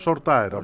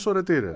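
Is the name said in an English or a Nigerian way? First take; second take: English; Nigerian. First: The name is said the English way. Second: The name is said the Nigerian way. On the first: The speaker calls it wrong. "οι Άγγλοι τον έλεγαν short tire" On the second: The speaker calls it right. "στην Νιγηρία είναι Σορετήρε"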